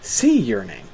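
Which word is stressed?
sea. The stress falls on the word 'sea'. It is the ordinary way to say the phrase, naming a kind of yearning. "you would generally put the stress on the word sea"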